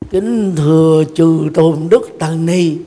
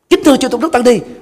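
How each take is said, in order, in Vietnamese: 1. Các từ này được nói rất chậm. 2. Các từ này được nói rất nhanh. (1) "phát âm quá chậm" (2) "phát âm quá nhanh"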